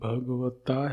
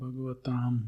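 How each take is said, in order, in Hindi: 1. यह शब्द खुले स्वर से समाप्त होता है। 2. यह शब्द अनुनासिक म् ध्वनि से समाप्त होता है। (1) "आप लोग ता पाठ करते हैं" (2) "अनुस्वार उच्चारण करते हैं कुछ लोग ना, वो तो गलत है।"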